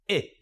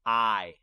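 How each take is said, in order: First: "I" as the short sound in tin; brief "I", cut short like the vowel in tin. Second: "I" said as its letter name; long vowel. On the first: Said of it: "makes the vowel say the short sound". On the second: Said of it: "the vowel can say its name like this". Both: Shown as a demonstration.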